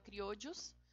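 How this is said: The double L is said the Latin American way. "aqui na América, para os países da América, se fala criollos"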